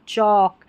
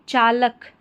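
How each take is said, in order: First: The L is silent in the word. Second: The L sound is pronounced in the word. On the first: The speaker calls it right. "इसमें एल silent है" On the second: The speaker calls it wrong. "इसको भी चालक नहीं पढ़ेंगे"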